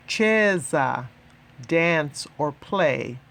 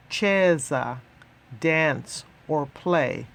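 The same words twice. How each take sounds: The two takes are said the same way.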